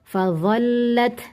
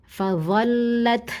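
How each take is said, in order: The two takes are said the same way.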